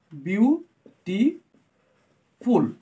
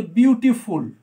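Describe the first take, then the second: First: beautiful broken into three slow, separate syllables; split into syllables. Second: Said in the usual way. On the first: Shown as a demonstration. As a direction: say beautiful syllable by syllable with long pauses. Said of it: "more than one syllable আছে".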